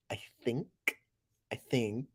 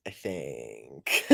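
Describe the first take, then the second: First: Soft trailing "I think"; quiet trailing. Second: Very low put-on "I think"; deep goofy voice. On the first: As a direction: murmur "I think" under breath. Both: Shown as a demonstration.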